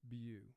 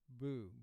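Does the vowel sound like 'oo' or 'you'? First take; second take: you; oo. First: The vowel sounds like 'you'. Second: The vowel sounds like 'oo'. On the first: The speaker calls it right. "with one line under it, it's representing its primary sound U" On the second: The speaker calls it wrong. "if we had two lines under E W, we would pronounce this boo"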